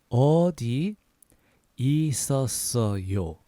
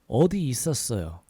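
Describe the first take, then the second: First: It is said at a slower pace. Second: It is said at a faster pace.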